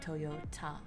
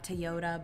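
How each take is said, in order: First: The middle T is said strongly. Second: The middle T is said weakly. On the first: It is the Japanese pronunciation. "but Toyota. You're emphasizing the T" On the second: It is the usual English pronunciation. "so it's not Toyota"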